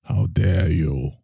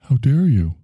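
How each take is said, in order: First: Low, slow disdainful 'How dare you?'; Greta's frozen-scowl voice, low and slow; Greta Thimble. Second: Plain-voiced quote, no put-on; just says it the way [name] would; quoting Greta. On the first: Acted. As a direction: drop low and drag it out with disdain. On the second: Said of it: "She just keeps saying".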